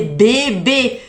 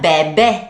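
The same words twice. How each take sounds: First: It is said in a higher, normal pitch. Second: It is said in a low, deep pitch.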